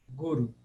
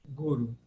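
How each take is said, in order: The two takes are said the same way.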